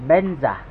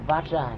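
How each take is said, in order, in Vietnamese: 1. Từ này được đọc là benza. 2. Từ này được đọc là vajra. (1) "người Tây Tạng họ đọc là Benza" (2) "nguyên ngữ thì nó là Vajra"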